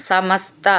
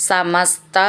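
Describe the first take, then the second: No difference in how they are said.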